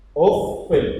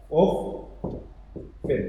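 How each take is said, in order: First: Uffin said aloud, ff held; voiced demo. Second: Uffin whispered, ff held; whispered demo. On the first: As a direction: say uffin clearly, ff doubled. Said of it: "Ini juga bacaannya uffin". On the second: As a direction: breathe uffin out softly, ff doubled. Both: Shown as a demonstration.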